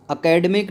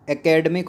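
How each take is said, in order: First: "एकेडमिक" begun with a short "a" sound; wrong pronunciation. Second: "एकेडमिक" begun with an open "e" sound; correct pronunciation. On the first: Teacher shows students the form to avoid, mispronounced "एकेडमिक" with opening "a". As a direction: say "एकेडमिक" as "akademik", higher pitched. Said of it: "नहीं होता". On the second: Teacher gives students the accepted form, "एकेडमिक" with opening "e". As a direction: say "एकेडमिक" as "ekedmik". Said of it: "होता है". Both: Shown as a demonstration.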